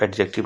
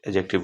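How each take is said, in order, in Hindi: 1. d की ध्वनि साफ़ बोली जाती है। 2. d की ध्वनि साइलेंट रहती है। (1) "और लोग एडजेक्टिव कहते हैं" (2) "यहाँ पे डी जो है ना वो साइलेंट होता है"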